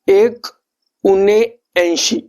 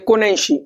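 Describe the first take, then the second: First: It is said slowly, split into three words. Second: It is said quickly, run together as one word.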